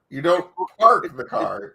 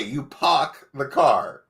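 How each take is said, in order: First: "park" with a clear r sound, a bit slow; correct park. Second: "park" said like pock with no r, slow; Boston park. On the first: Shown as a demonstration. Host corrects the guest, "park" with a clear r. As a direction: say "park" with the r fully pronounced. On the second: Retold or imitated. Host mocks the guest's Massachusetts way of saying "park", slow. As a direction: stretch out "park" as pock, dropping the r. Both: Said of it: "P O C K".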